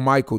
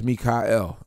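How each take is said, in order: First: The name is said the usual English way. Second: The name is said the Hebrew way. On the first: The speaker calls it wrong. "Oh, Michael" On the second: The speaker calls it right. "No, my name is Mikael"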